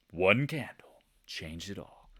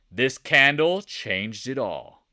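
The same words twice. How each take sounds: First: Slow, hushed whisper for suspense; hushed, drawn-out reveal; dramatic whisper. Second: Slow, loud dramatic announcement; big drawn-out pronouncement; emphatic declaration. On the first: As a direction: whisper it slowly, as a solemn echo. Dramatic hushed echo of line before. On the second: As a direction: proclaim it slowly and loudly. Emphatic statement before whispered echo. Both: Shown as a demonstration.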